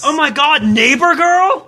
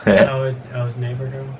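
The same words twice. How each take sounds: First: High, hammed-up thrill; exaggerated gushing, pitched up; mock excitement. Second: Low, deadpan delivery; underwhelmed, low-pitched murmur; unexcited. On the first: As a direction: overdo the excitement on request, drawing out the words. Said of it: "need a little bit more excitement". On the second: Real, not acted. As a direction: say it with no excitement at all. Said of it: "don't sound so fucking excited".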